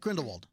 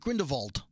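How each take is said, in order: First: The last part starts with an English w sound. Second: The last part starts with a German v sound. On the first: This is the usual English way of saying the name. "In all of the trailers, it's Grindelwald" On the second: This treats the name as German or Austrian. "Grindelwald was German or Austrian or something like that, and that he would have pronounced it Grindelwald"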